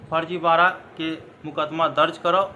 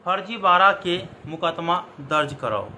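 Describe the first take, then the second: No difference in how they are said.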